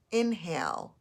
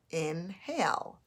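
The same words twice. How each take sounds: First: Said in the usual way. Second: "Inhale" slowly as in, pause, hale; slow "Inhale" with a break between its syllables; split into syllables. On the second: Shown as a demonstration. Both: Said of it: "to separate the two syllables".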